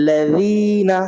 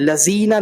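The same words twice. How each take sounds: First: The middle consonant is a soft th sound. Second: The middle consonant is a buzzing z sound. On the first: The speaker calls it right. "बिल्कुल बारीक करके आप जाल निकालिए" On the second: The speaker calls it wrong. "लजीना नहीं पढ़ सकते आप"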